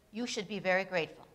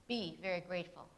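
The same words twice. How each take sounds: First: A calm statement, falling at the end; just state it, no command; declarative, matter of fact; plain statement. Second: Be very grateful as a command, stress on Be, falling. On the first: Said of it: "Here it was in the declarative". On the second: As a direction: tell them to do it. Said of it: "Here it is in the imperative". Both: Shown as a demonstration.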